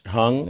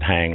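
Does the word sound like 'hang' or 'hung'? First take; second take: hung; hang. First: The word is said with a vowel like 'hung'. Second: The word is said with a vowel like 'hang'. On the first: The speaker calls it right. "I think it's pronounced Hung" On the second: The speaker calls it wrong. "I'll mispronounce it, hang like an American would"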